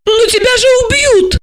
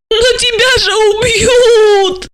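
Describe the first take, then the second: First: Very high, alarmed outcry; indignant protest. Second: Very high, drawn-out tearful wail; howling. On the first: Asya objects to Gorokhov's reckless orders, high and indignant. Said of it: "возмутилась она". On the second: Asya despairs for Gorokhov's life, wailing long and high. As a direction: howl it slowly, stretching the last word. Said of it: "Ася взвыла". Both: A narrator's reading.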